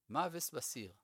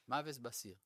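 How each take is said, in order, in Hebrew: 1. יש בו תנועות ליטאיות, ו-s במקום sh. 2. יש בו תנועות ליטאיות, ו-s במקום sh.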